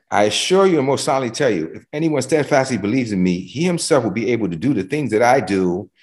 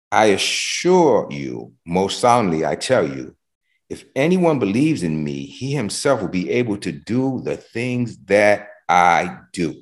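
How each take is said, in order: First: Quicker, a little higher reading of the verse; brisk amplified reading. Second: Slow, measured reading of the verse; slow scripture reading. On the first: Preacher rereads the amplified verse to the congregation, brisker. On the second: Preacher reading the verse to the congregation, slow and measured. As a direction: read each phrase slowly, weighing it. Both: Shown as a demonstration.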